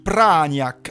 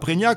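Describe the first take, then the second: First: The first syllable is 'pra' with strong stress. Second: The first syllable is 'pré' without strong stress. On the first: The speaker calls it right. "on dit Pragnac, avec un accent tonique sur Pra" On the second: The speaker calls it wrong. "On ne dit pas Prégnac"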